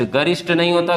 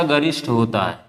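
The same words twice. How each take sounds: First: Said in the usual way. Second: गरिष्ठ said low and firm with a falling close; correcting emphasis. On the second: Shown as a demonstration. A teacher fixing a spelling for students, firm and low. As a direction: lean down on गरिष्ठ to mark it as correct.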